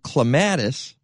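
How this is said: The word is said in a broad Chicago accent. The speaker is a local from Chicago. "if you're from Chicago"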